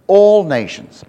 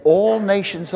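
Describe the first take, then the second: First: All hit louder than usual; stress on All. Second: Said in the usual way. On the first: Shown as a demonstration. Preacher corrects the idea of one nation, All stressed loudly. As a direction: punch the word All, then fall away. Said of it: "not one". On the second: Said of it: "He said".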